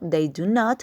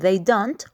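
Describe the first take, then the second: First: The verb is said as two separate words. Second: The verb is contracted into one syllable. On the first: A slightly more formal form. "ustedes pueden decir" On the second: A more casual, everyday form. "en vez de decir"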